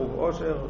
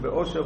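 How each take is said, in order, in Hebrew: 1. המילה מתחילה בעיצור לועי גרוני. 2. המילה מתחילה בהתחלה גרונית קלה. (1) "ובעין" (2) "באלף"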